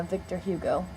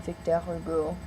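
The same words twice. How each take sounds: First: Said in the usual way. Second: "Victor Hugo" said the French way, slower; French-accented "Victor Hugo", drawn out; French pronunciation. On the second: Shown as a demonstration. Repeats avenue name in French way.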